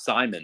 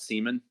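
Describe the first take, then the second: First: The first syllable has an 'eye' vowel. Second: The first syllable has an 'ee' vowel. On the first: The speaker calls it right. "Is Simon, right?" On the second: The speaker calls it wrong. "Not Seaman"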